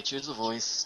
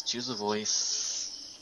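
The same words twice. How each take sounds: First: Said in the usual way. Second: Drawn-out musing. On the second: Shown as a demonstration.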